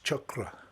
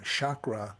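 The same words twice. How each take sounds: First: The word has a Sanskrit-style pronunciation. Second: The word has an anglicized English pronunciation. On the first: The energy bubbles up and flows outward. The speaker calls it right. "in a more Sanskrit um, pronunciation, the way it's pro- properly should be properly expressed" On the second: The energy feels narrow and focused. The speaker calls it wrong. "in a more limited fashion, which in in my mind is what the um, the pronunciation chakra is all about"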